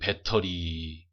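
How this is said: It is said with a Korean accent. "우리나라 사람들은"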